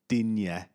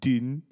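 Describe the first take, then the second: First: The surname ends with an added 'ya' sound. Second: The surname is one syllable with no ending. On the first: The speaker calls it wrong. "they say Luka Dinya, and that's not right" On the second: The speaker calls it right. "mispronounce the name of Everton fullback Luka Dean"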